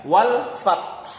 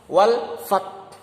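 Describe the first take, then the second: No difference in how they are said.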